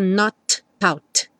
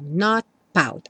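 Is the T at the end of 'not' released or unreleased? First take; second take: released; unreleased. First: The T in 'not' is clearly released. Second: The T in 'not' is held, unreleased. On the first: The speaker calls it wrong. "Você não escuta not pout" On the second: The speaker calls it right. "O T vem mesmo só fechar o som"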